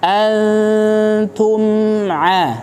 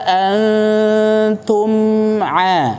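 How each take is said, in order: Both takes have the same delivery.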